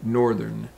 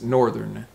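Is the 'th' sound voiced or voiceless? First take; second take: voiced; voiced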